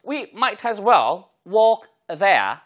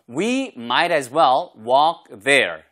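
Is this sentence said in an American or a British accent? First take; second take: British; American. First: It is said in a British accent. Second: It is said in an American accent. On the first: "영국식은요" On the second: "미국식 발음이죠"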